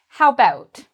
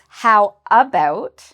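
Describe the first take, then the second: First: The first vowel of 'about' is left out. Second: The first vowel of 'about' is fully pronounced. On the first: "you might actually hear a native speaker say ... some people might not pronounce the A" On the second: "when we write it, it's how about"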